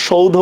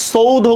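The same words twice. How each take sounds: First: সৌধ begun with a hushed sh, not s; correct sh sound. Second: সৌধ begun with dental s instead of sh; wrong s sound. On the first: Teacher shows students the accepted option, সৌধ with an sh sound. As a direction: say সৌধ with an sh at the start, 'shoudho'. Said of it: "আমরা সৌধ উচ্চারণ করি". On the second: Teacher shows students the rejected option, সৌধ with an s sound. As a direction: say সৌধ with a hissing English-style s at the start, 'soudho'. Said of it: "আমরা তো সৌধ উচ্চারণ করি না". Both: Shown as a demonstration.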